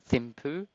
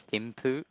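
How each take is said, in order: The two takes are said the same way.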